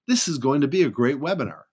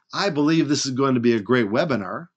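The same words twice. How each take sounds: First: Firm, falling statement without hedge; just say it straight; firm falling "This is going to be a great webinar"; stated as fact. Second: Qualified, hedging I believe; hedged "I believe this is going to be a great webinar". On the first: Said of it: "I can just say it as it is". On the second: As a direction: soften it with "I believe". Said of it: "Instead of saying". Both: Shown as a demonstration.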